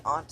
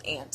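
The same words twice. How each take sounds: First: "aunt" said "ahnt". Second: "aunt" said like "ant". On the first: Comparing names for an aunt, "aunt" as "ahnt". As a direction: say "aunt" with a broad ah. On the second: Comparing names for an aunt, "aunt" as "ant". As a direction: say "aunt" with the vowel of cat. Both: Shown as a demonstration. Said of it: "sounds better when you say".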